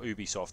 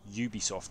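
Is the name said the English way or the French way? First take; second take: French; English. First: The name is said with a French pronunciation. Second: The name is said with an English pronunciation. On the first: This is how French speakers say it. The speaker calls it wrong. "If you're pronouncing it Ubisoft, you should be French" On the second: This is how non-French speakers should say it. The speaker calls it right. "you should be pronouncing it Ubisoft"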